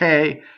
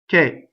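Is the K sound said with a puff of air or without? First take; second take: with air; without air. First: The K is released with a strong puff of air. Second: The K is sharp with almost no air. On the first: The speaker calls it wrong. "It's not K, K. No, it's not with a lot of air" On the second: The speaker calls it right. "It's just K. very sharp, but almost almost voiced"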